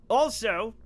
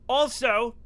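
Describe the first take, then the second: The two takes are said the same way.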